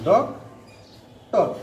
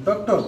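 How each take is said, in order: First: "ডক", long pause, then "টক"; syllable by syllable. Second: Said in the usual way. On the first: Shown as a demonstration. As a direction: break it into two isolated beats, "ডক" and "টক". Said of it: "কয়টি syllable উচ্চারণ করতে পারি". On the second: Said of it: "চার নম্বর উদাহরণটি".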